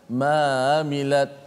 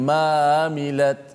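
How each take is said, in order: First: The Ain sound is loose and blends into mamilat. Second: The Ain sound is loose and blends into mamilat.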